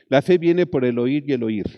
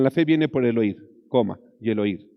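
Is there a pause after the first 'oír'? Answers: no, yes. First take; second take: no; yes. First: It runs on without a break after 'oír'. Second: There is a break after the first 'oír'. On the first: Hearing is continuous and ongoing. The speaker calls it right. "Es un continuo" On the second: Hearing happens once, then again. The speaker calls it wrong. "no le pongan una coma ahí. No digan"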